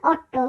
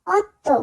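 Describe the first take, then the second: First: "অট্টো" with retroflex Bengali ট; wrong hard t. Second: "অত্তো" with dental Bengali ত; tongue on teeth for tt in "অত্তো"; soft dental t. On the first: Teacher showing what not to say, hard retroflex "অট্টো". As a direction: curl the tongue for tt in "অট্টো". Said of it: "আমরা বলবো না অট্টো". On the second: Teacher correcting Italian eight, dental "অত্তো". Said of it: "টি কে উচ্চারণ করা হয় বাংলা ত এর মতো". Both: Shown as a demonstration.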